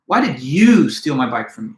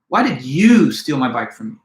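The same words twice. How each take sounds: First: The word you carries the main stress. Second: The same.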